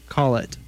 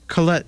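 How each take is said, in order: First: The name is said like Call It. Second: The name is said as Colette. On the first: The speaker calls it wrong. "not Call It" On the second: The speaker calls it right. "you were just listening to Colette Shows Him the Ropes"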